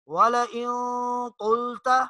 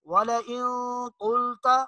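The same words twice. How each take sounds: Both takes have the same delivery.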